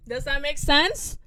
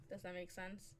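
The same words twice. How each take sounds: First: Louder, higher, drawn-out question; loud check. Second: Low-key, softly asked question; quiet check. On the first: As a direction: call it out for an answer. Repeats loudly to get a response. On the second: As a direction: ask it softly, almost to yourself. Asks softly, then repeats louder. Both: Real, not acted.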